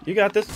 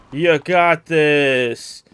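First: High, quick urging; brisk high-pitched pep talk; quick encouragement. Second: Loud, very slow, stretched-out cheer; long, loud, drawling pep talk; drawn-out encouragement. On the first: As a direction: urge it on in a high, light voice. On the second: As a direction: drag out every word loudly. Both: Real, not acted. Urging on during game fight.

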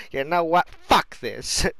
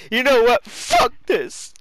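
First: Imitated game character. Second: High, loud mock outburst; exaggerated imitation. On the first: Repeats the character's line. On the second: Repeating the character's line for laughs, exaggerated high yell. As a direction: blow the quote up into a yell.

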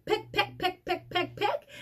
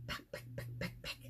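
First: High, soft chanted peck peck; pecking sounds. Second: Whispered peck peck, no voice at all. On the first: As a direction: tap it out lightly like a chick's beak. Mimics chick pecking egg. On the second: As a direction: breathe it out like a secret tapping. Penguin chicks pecking egg. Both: Shown as a demonstration.

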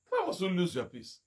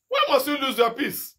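First: Much softer, inward repeat of the question; second take hushed after the pressed one. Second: Raised, pointed question at the flock; first take pressing, second hushed. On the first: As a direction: drop it to a near murmur. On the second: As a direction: push the question up and out. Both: Acted.

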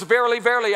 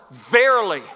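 First: Said in the usual way. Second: "Verily" said once, loud and weighty; emphatic VERILY. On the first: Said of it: "you don't have a speech impediment". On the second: Acted. Jesus speaks to the guys at the Last Supper, emphatic "Verily". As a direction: hit "Verily" hard as one emphasized word. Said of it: "Jesus emphasized the word".

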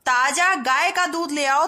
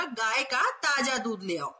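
First: Much louder and slower, ताजा punched; slow loud reading. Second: गाय का ताजा दूध ले आओ read slowly at normal level; slow careful reading. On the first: Teacher loudly rereading the wrong sentence to children. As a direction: read the wrong sentence with force. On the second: Teacher reading the corrected sentence slowly to children. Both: Shown as a demonstration. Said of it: "सही वाक्य क्या बनेगा".

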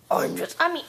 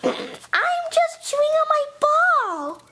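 First: Said in the usual way. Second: High, slow put-on voice; bad imitation of Indy. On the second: Clone pretends to be Indy chewing a ball, in a false high voice. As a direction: stretch it out high, badly faking another voice. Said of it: "that doesn't sound like Indy at all".

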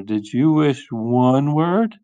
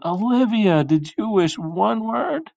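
First: Said in the usual way. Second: High-pitched, drawn-out questioning; urgent yell. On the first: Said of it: "said her father". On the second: Acted. Parents running in to question Olivia, high anxious yell. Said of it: "ran in and yelled".

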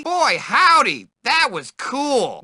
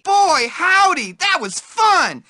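First: Said in the usual way. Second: High, thrilled exclaim; excited. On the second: Acted. Nerd after a ride, high and thrilled. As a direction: gush it with delight. Game bark, excited take.

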